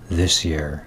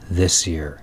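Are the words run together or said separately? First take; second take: run together; run together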